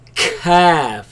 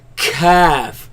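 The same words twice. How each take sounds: First: The k sound is pushed out like a cough. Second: The k sound is pushed out like a cough.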